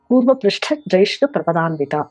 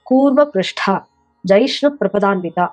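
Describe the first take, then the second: First: All four words run together without a break. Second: There is a break after the second word. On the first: The feet surpass the beauty of a tortoise's curved back. The speaker calls it right. "ஒரே நாமம்" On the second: The feet are as hard as a tortoise's back. The speaker calls it wrong. "நீங்க பிரிச்சா என்ன ஆகும்?"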